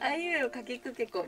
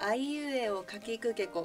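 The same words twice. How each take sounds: First: It is said at a fast speed. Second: It is said at a slow speed. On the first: "みたいな速さで" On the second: "スピードを落として"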